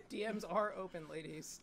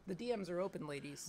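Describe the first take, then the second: First: Muffled closed-mouth speech; talking with mouth closed. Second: Words pushed through closed lips; talking with mouth closed. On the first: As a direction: keep the lips sealed. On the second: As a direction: say it with your mouth shut. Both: Shown as a demonstration. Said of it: "talk without opening your mouth".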